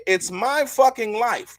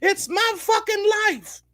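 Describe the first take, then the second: First: Lightly higher, slow quoted line; milder retelling. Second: High-pitched slow mock outburst; mock shout. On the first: Retold or imitated. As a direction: repeat it with less fire. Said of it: "she say". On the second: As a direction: squeal it out like she's losing it. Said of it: "before shouting".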